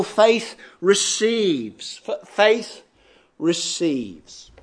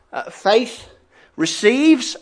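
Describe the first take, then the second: First: Faith receives drawn out slowly, each word weighted; slow emphatic heading. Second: Said in the usual way. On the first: Shown as a demonstration. Preacher announcing his first heading to the congregation, slow and deliberate. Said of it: "So first of all". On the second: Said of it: "First of all".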